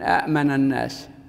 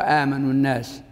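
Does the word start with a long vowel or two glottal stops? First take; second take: two stops; long vowel. First: The word begins with two separate glottal stops. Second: The word begins with one stop and a long vowel. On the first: This is the underlying form of the word. "فصار من الناحية الصرفية أأمن الناس" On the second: This is the form actually used in speech. "فتبدل الثانية ألفا"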